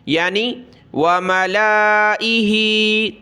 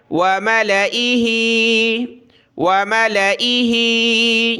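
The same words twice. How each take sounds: First: मलाइही with the lam stretched out long, the mistake; wrong reading. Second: मलाइही recited slowly with a short lam; correct recitation. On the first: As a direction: slowly drag the lam in मलाइही. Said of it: "बहुत सारे गलती में क्या पढ़ते हैं". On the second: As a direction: recite मलाइही melodiously without stretching the lam. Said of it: "क्या पढ़ना है?". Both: Shown as a demonstration.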